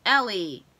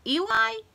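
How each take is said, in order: First: "Ellie" said as EL-ee, falling, settled; corrected name. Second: "Eli" said as EE-lie, rising, unsure; wrong name. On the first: Vlogger correcting herself on the name, settled "Ellie". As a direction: land on "Ellie" as the fix. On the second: Vlogger guessing the character's name, unsure rising "Eli". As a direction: try "Eli" as a tentative guess. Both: Shown as a demonstration.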